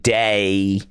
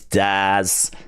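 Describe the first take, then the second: First: It sounds like 'day', with no final z. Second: It sounds like 'daz', ending in a z. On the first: The speaker calls it wrong. "I'm so used to that being day" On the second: The speaker calls it right. "but it's Daz"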